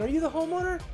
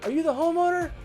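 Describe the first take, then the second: First: It is said in a high, overly upbeat inflection. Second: The same.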